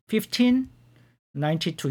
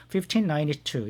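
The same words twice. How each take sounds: First: Fifteen, pause, ninety-two, each pair its own chunk; read in two-digit chunks. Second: Fifteen ninety-two said slowly and evenly, as one number; slow model reading. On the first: Teacher modelling Fifteen ninety-two to students, chunked in two. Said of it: "두 자리씩 끊어서 fifteen ninety-two 이렇게 읽습니다". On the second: Teacher models Fifteen ninety-two as one slow reading. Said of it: "그냥 그대로 단순히 읽으시면 됩니다". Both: Shown as a demonstration.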